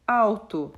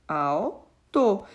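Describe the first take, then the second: First: Said in the usual way. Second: "alto" broken in two: al, to; split into syllables. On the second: Shown as a demonstration. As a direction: say "alto" syllable by syllable, pausing after "al". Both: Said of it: "quando eu fizer a separação de sílabas".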